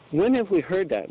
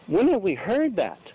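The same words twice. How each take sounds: First: "When" stressed, falling. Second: "have" stressed, falling. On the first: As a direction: lean on "When". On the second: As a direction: lean on "have". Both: Shown as a demonstration. Preacher repeats rhetorical question.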